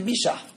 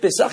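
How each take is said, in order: First: It begins with 'b' and has an 'sh' sound. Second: It begins with 'p' and has an 's' sound. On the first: This is the Tunisian pronunciation. "il disait « Bichah »" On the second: This is the standard pronunciation. "Au lieu de dire « Pessah »"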